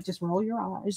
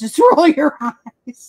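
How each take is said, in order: First: Low, hushed dismissive aside; much softer, lower retold reaction. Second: Slow, louder, laughing through it; amused, drawn-out retold reaction; laughing dismissal. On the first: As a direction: say it softly under your breath. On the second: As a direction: draw it out loudly with a laugh.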